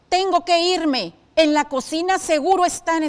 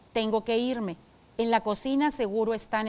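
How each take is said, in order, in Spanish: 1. Se lee con un tono enojado e irritado. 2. Se lee de forma neutral, sin una emoción clara. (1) "con enojo" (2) "en una primera entonación, así tal cual aparece"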